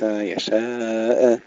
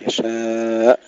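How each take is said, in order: First: Long "يشاء" with an extra "eh" after ء; wrong, bounced hamza. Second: Long "يشاء" ending in a shut glottal stop; still final hamza. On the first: Teacher shows the mistake to avoid, hamza with qalqalah. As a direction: pop the final ء of "يشاء" open. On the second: Teacher shows the correct ending, unbounced hamza. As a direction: close cleanly on the ء of "يشاء". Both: Shown as a demonstration. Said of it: "الهمزة أيضًا لا نقلقلها".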